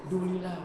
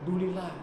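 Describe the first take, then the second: No difference in how they are said.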